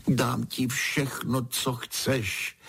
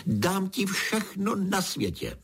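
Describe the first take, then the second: First: Mildly plaintive, raised pitch; lamenting. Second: Much higher-pitched royal outcry; exclaiming. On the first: Horned king offers Pedro anything, lamenting. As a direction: plead like a storybook king. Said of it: "bědoval král". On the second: King refuses to give up his belt, exclaiming. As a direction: cry out the offer, without extra volume. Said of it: "zvolal král". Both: A narrator's reading.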